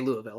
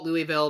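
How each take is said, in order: First: The name is said slurred together, syllables merged. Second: The name is said fully, syllable by syllable. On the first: The speaker is from the city. "if you know people from there, they're all gonna say" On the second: The speaker is not from the city. "if you're not from there, you call it"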